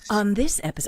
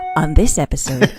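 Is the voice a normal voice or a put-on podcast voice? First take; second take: normal; podcast voice. First: It is said in her ordinary speaking voice. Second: It is said in a put-on podcast announcer voice.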